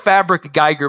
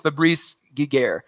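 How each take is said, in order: First: The name is read as English spelling. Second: The name is given a French pronunciation. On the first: This is how the spelling looks. The speaker calls it wrong. "It says it looks like Fabric Geiger" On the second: This is how the name is really said. The speaker calls it right. "but I think it's Fabrice Giger"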